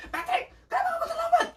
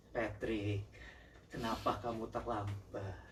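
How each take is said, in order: First: Hammed-up very high-pitched shriek of a question; mock furious squawk, far above normal pitch; high-intonation angry outburst. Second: Low, hushed and restrained question; controlled anger. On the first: Contrasting how an angry person yells at a late Patrick, hammed-up outburst. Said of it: "Beda kan kalau". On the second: Showing how to ask a late Patrick with lowered intonation, controlled. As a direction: keep the anger in, speaking low and soft. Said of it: "intonasinya itu di". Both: Shown as a demonstration.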